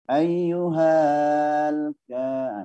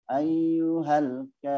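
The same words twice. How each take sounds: First: The vowel is dragged out and lengthened. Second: The vowel runs straight on without lengthening. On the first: The speaker calls it wrong. "diseret ... enggak boleh" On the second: The speaker calls it right.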